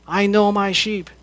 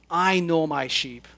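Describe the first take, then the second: First: "know" stressed in "I know my sheep". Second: "I" stressed, rest falling, a little softer. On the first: Preacher repeating Jesus' words, now stressing "know". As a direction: punch the word "know". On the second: Preacher quoting Jesus to the flock, stressing "I". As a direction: land on "I" in "I know my sheep". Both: Shown as a demonstration. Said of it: "Jesus says".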